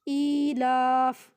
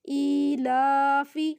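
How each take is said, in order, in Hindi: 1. शब्द सादे f व्यंजन पर खत्म होता है। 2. शब्द f के बाद एक छोटे स्वर पर खत्म होता है।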